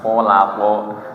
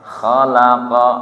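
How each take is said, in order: First: The first vowel is rounded, like an o. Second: The first vowel is open, lips not rounded. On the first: The speaker calls it wrong. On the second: The speaker calls it right. "mulutnya tidak muncu, tidak ho, tapi hanya buka kha"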